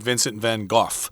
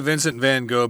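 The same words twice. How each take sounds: First: The name is said the British way. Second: The name is said the American way.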